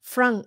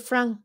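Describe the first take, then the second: First: It is said with a French-style vowel. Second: The same.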